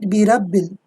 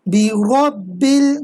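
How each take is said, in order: First: The r sound is light and thin. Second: The r sound is heavy and full. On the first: The speaker calls it wrong. "not birabbil" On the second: The speaker calls it right. "read with a heavy voice because of the fatha sign"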